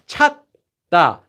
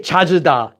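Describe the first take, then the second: First: It is said without the extra vowel, two syllables. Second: An extra vowel makes it three syllables. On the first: The speaker calls it right. "So now we have 찾다" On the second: The speaker calls it wrong. "You can't say chajida"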